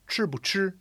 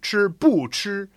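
First: The middle syllable 'bu' is light and toneless. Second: The middle syllable 'bu' carries a full tone. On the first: The speaker calls it right. "That is fifth tone" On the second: The speaker calls it wrong. "It's not"

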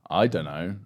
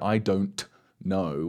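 First: The words are run together and shortened. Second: Each word is said fully and clearly. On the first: The speaker calls it right. "We say" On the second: The speaker calls it wrong. "we don't say"

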